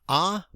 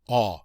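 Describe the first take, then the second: First: It is said in a high, raised voice. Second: It is said in a low, deep voice. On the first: "I don't do a very good high voice" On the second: "I'm going to say this one a little bit lower"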